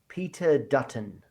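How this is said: It is said in an American accent.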